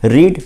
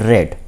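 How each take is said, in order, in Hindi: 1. स्वर लंबा है, 'seed' की तरह। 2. स्वर छोटा है, 'bed' की तरह। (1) "फर्स्ट सेकेंड थर्ड फॉर्म में रीड रेड रेड" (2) "first second third form में रीड रेड रेड"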